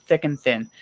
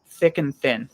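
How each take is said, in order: The two takes are said the same way.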